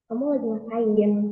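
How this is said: The question sounds tired and worn out. The asker is fed up with the other's behavior. "misal saya lagi capek banget nih"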